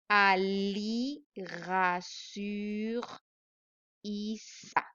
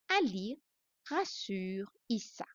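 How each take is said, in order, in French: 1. La phrase est lue à un rythme lent. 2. La phrase est lue à un rythme plus rapide.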